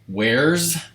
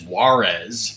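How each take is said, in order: First: It sounds like one syllable, 'wares'. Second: It sounds like two syllables, 'wah-rez'. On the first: "Would would you guys pronounce that as wares?" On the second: "I pronounced it as Juarez because that's what I thought it was"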